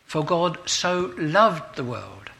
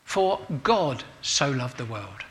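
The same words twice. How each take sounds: First: "loved" drawn out and stressed, said slowly; slow down and lean on "loved"; "For God so loved the world" with the weight on "loved". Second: "God" stressed, the rest of "For God so loved the world" said evenly; "For God so loved the world" with the weight on "God". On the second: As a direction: lean on the word "God". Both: Shown as a demonstration. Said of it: "giving emphasis to a different word each day".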